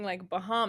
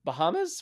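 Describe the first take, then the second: First: Imitating Bahamas with a long hissing s; drawn-out s like a snake. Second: Bahamas with a long hissing s at the end; drawn-out s like a snake. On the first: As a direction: Bahamas ending in a drawn-out hiss. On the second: Real, not acted. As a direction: stretch the final s of Bahamas like a hiss. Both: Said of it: "You sound like a snake would say Bahamas".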